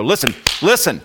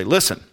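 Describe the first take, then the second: First: "Listen, listen" punched louder and higher; doubled emphatic call. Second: A firm, slightly raised "Listen"; single emphatic call. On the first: Speaker playing coach at basketball practice, doubly urgent call. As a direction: hit both words of "Listen, listen" hard, pitch jumping up. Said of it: "that's doubly important". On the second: Speaker playing coach at basketball practice, single emphatic call. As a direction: say "Listen" once as an important instruction, pitched up. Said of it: "now, that's important that you listen". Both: Pretend.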